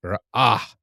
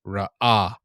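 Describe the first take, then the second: First: Ra'ah said loudly with a rising end; Ra'ah, loud with a rising tune; Hebrew word ra'ah. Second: Ra'ah said loudly with a long ah; Ra'ah, loud teaching model; Hebrew word ra'ah. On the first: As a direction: model Ra'ah with the tune going up. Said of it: "But there is no dot". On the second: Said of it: "that hey would be emphasized". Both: Shown as a demonstration.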